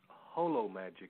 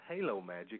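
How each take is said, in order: First: The first syllable sounds like 'hoe'. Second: The first syllable sounds like 'hay'. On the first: The speaker calls it right. "It's Holo Magic, as in the Greek root holism" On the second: The speaker calls it wrong. "it's not Halo Magic"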